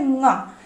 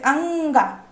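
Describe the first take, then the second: First: It is said as a bare 'nga'. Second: It is said with an 'a' before 'nga'. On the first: The speaker calls it right. "इसलिए इसका उच्चारण होता है ंगा" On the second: The speaker calls it wrong. "अगर आप अंगा बोलोगे"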